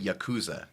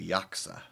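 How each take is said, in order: First: American style, pitch rising on the second syllable. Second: Japanese style, no rise on the second syllable. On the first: The speaker calls it wrong. "They don't say yakuza" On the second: The speaker calls it right. "they say yaksa"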